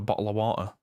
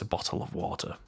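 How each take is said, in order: First: It is said in a rough Northern English accent. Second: It is said in a posh English accent. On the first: "in my kind of Northern English rough accent" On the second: "using kind of my telephone voice"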